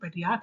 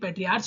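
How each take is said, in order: First: The word ends with a 'k' sound. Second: The word ends with a 'ch' sound. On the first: The speaker calls it right. "पैट्रियार्क है" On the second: The speaker calls it wrong. "ये पैट्रियार्च नहीं"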